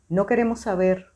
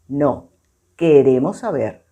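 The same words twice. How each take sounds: First: It is read straight through without pause. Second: There is a pause after 'No'. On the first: They do not want to know. "voy a leer corrido donde no está" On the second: They do want to know. "voy a hacer la pausa donde está la coma"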